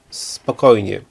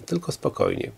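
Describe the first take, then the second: First: Said in the usual way. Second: Much lower and softer, almost under her breath; quiet self-calming. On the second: A narrator's reading. Woman calming herself before the quarrel, very quietly. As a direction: drop right down and soothe yourself. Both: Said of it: "nakazała sobie po chwili".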